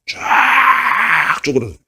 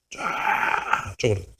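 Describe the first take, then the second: First: High, slow, crying wail; dramatic. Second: Softer, slow breathy whisper. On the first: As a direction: stretch the word out as it withers. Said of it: "leaves shrivel, voiced". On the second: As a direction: let it wither into a whisper. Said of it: "echo whispered". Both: Acted.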